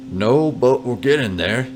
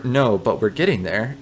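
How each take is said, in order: First: Reassuring. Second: Said in the usual way. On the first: Pretend. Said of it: "you reassure the old man".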